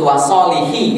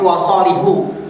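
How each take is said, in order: First: The word ends with an i vowel. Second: The word ends with a u vowel. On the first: The phrase continues and links to what follows. The speaker calls it wrong. "Itu nggak disebut wasolihi" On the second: The phrase breaks off and a new one starts. The speaker calls it right. "tapi wasolihu"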